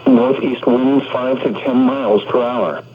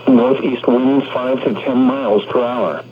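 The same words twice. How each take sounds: The two takes are said the same way.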